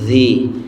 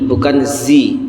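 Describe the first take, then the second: First: The consonant is a soft 'th' sound. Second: The consonant is a plain buzzing 'z' sound. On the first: The speaker calls it right. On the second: The speaker calls it wrong.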